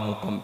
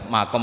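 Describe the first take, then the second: First: The first vowel is a 'u' sound. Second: The first vowel is an 'a' sound. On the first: "resikonya harus dibaca mukom" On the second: "baca makom apa mukom"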